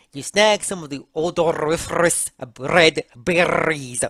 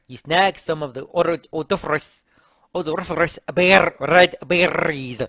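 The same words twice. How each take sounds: First: Fluent, trilled R's in "odoriferous red berries"; rolled R's. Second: Stumbling over "odoriferous" with trilled R's; halting try at trilling the R in "berries"; rolled R's. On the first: Second try at reading the berry line, rolled R's. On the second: Reading out berry instructions haltingly, rolled R's. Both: Shown as a demonstration. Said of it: "you could roll your R's on every R".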